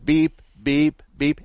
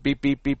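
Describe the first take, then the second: First: The beeps are spaced slowly apart. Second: The beeps come quickly one after another. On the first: The car is still some distance away. "as it goes beep" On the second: The car is getting closer to an obstacle. "the closer you get, it goes"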